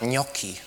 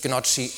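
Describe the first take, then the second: First: The middle consonant is a hard k sound. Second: The middle consonant is a soft ch sound. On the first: The speaker calls it right. "sondern Gnocchi. ... Weil das H das C erhärtet" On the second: The speaker calls it wrong. "es heißt nicht Gnocchi"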